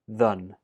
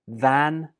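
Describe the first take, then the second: First: The word has a weak uh vowel. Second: The word has a full, strong vowel.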